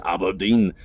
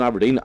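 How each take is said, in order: First: Mock Scottish "Aberdeen"; playful, hammy Scottish accent; shitty Scottish accent. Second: Said in the usual way. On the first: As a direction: say it in a badly faked Scottish accent. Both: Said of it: "I'm a big fan of a shitty Scottish accent".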